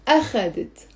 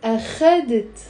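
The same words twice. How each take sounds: First: أخذت stressed on the opening أ; stress on first syllable. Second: أخذت stressed on the middle syllable خَ; stress on second syllable. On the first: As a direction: say أخذت as A-kha-det for learners to repeat. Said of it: "So the stress is on the أ". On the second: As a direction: say أخذت as a-KHA-det. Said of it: "The stress is on the خ". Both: Shown as a demonstration.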